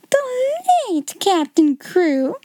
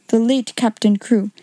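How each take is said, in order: First: Higher, slow, stunned repetition; shocked cry. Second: Said in the usual way. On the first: Acted. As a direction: echo the words in horror. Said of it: "she cried out".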